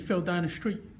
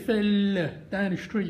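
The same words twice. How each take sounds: First: The vowel in fell is short. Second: The vowel in fell is long. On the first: The speaker calls it right. "I normally just say" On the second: The speaker calls it wrong. "I don't say"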